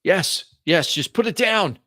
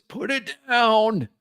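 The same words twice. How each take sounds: First: Put-on high, urgent old man; old man's voice. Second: Put-on high, drawn-out old man's plea. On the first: Old man wanting the package back, old man's voice. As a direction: plead as an anxious old man. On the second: Old man begging for his package, drawn-out old man's voice. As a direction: stretch it slowly as an old man. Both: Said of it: "An old man's voice".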